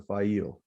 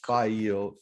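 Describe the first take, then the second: First: The name ends in a stressed 'eel' sound. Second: The name has no stressed 'eel' ending. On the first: "the eel is emphasized" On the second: "I think it's file"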